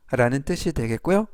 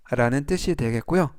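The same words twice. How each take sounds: The two takes are said the same way.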